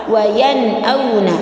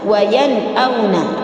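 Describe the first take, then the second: Both takes have the same delivery.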